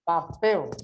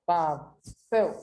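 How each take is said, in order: First: Said in the usual way. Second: "Papel" broken into pa... pel; "Papel" in two spaced syllables, rising at the end; separated into syllables. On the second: Shown as a demonstration. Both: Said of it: "ele tem mais forte aqui".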